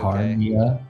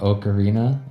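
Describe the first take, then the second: First: The middle sounds are swapped, giving Ocarnia. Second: The middle sounds are in order, giving Ocarina. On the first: "I had a friend that pronounced it Ocarnia" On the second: "instead of Ocarina"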